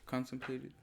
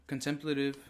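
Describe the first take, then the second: First: "contemplated" as CON-tem-play-tive, softer; soft alternative take, CON stressed with a long "play". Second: "Contemplative" as con-TEM-pluh-tive; con-TEM-pluh-tive, short unstressed "pla"; stress on TEM. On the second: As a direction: hit the second syllable of "Contemplative". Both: Shown as a demonstration. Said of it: "Well, it's the same thing".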